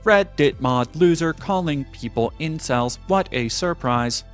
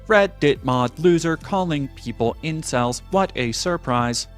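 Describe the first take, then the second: First: It is read in a flat robotic voice. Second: The same.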